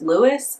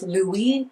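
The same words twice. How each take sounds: First: The name is said as it is spelled. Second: The name is said the French way. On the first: "the spelling of the name is also pronounced Louis" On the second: "being more French and also more like New Orleansian"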